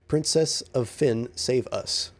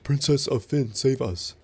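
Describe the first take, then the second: First: It is said in a plain, normal voice. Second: It is said in a put-on character voice.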